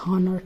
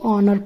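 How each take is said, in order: First: The word begins with an h sound. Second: The word begins with a vowel, no h. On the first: The speaker calls it wrong. "ना कि हॉनर" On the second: The speaker calls it right. "इसको ऑनर पढ़ेंगे"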